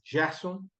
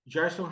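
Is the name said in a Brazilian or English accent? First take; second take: Brazilian; English. First: The name is said in a Brazilian accent. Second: The name is said in an English accent.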